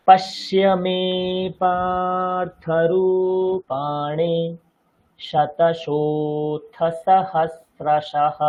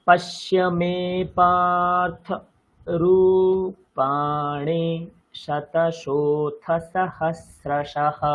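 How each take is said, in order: First: Slow chant holding the long syllables longer; long vowels stretched. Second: Chanted, slow drawn-out Sanskrit recitation; chanted, stretch each syllable evenly; chanted verse. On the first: Teacher marking long vowels in the verse. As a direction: lean on every দীর্ঘ syllable. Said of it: "প্রথম লাইনটা দেখুন". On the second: Chanted, teacher reading a Gita line to show metre. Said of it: "দেখুন". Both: Shown as a demonstration.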